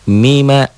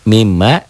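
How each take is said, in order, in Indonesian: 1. Huruf m di tengah pendek dan tunggal. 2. Huruf m di tengah dirangkap dan ditahan lebih lama. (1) "enggak bertasydid" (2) "mimnya bertasydid"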